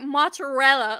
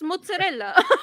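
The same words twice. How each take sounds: First: It is said with an American English pronunciation. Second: It is said with an Italian-style pronunciation. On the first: The speaker calls it wrong. "why do you guys say it like mozzarella?" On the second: The speaker calls it right. "it's mozzarella"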